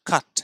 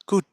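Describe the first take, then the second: First: The vowel sounds like 'uh'. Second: The vowel sounds like 'oo'. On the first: The speaker calls it right. "আ sound" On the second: The speaker calls it wrong. "কুট নয়"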